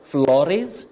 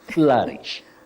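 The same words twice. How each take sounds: First: The first vowel is not a mid-central sound. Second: The first vowel is a mid-central sound. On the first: The speaker calls it wrong. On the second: The speaker calls it right. "the O and U represent the mid-central sound"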